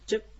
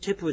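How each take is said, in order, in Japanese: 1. 単語は母音のない'p'の音で終わります。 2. 単語は完全な'pu'の音節で終わります。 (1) "チェップという発音になります" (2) "カムイチェップじゃなくて"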